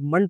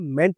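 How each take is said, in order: First: The vowel is a short, reduced 'uh' sound. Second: The vowel is a full, clear 'e' sound. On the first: The speaker calls it right. "M ई N T को हम लोग मंट बोलते हैं" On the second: The speaker calls it wrong. "मेंट नहीं बोलते"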